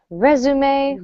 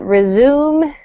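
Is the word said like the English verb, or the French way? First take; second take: French way; English verb. First: It is pronounced the French way, résumé. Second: It is pronounced like the English verb resume. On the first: The speaker calls it right. "that word comes to us from French" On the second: The speaker calls it wrong. "so it's not resume"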